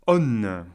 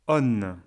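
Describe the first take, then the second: Both takes have the same delivery.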